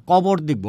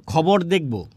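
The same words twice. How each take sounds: First: কবর with ক in place of খ; unaspirated k opening কবর; Netrokona pronunciation. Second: Said in the usual way. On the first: Retold or imitated. Teacher quoting a Netrokona speaker, কবর with k for kh. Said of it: "ক উচ্চারণ করে". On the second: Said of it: "এটা না বলে কি বলে?".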